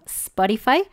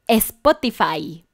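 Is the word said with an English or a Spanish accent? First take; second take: English; Spanish. First: It is said with an English accent. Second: It is said with a Spanish accent. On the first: "no sé si lo dije bien, yo creo que sí" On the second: "te sientes nervioso y dices "Uh"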